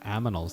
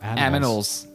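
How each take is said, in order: First: The m and n sounds are swapped. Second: The n and m sounds are in normal order. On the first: "I said aminals" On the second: "not animals"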